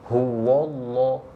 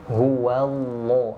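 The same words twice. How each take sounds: First: The waw before Allah sounds thick and heavy. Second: The waw before Allah sounds thin and light. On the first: The speaker calls it wrong. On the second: The speaker calls it right. "huwa, baru Allahnya tebal"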